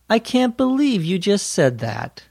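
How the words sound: The voice sounds friendly and warm. "Or you can have a friendly tone of voice"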